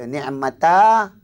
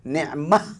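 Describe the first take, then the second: First: The word ends with an added ta syllable. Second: The word ends with a silent-stopped h sound. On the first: The speaker calls it wrong. "jangan baca ni'mata" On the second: The speaker calls it right. "Dia kena dimatikan"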